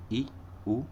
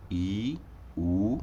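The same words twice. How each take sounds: First: ई, उ said briefly, like i and u; clipped short ई and short उ; short vowels. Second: ई, उ each sustained, like ee and oo; lengthened ई, then lengthened उ; long vowels. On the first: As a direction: give ई and उ one short beat each. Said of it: "समय कम लग रहा है". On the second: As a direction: hold ई and उ for a long beat. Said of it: "तो ये हो गए दीर्घ स्वर". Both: Shown as a demonstration.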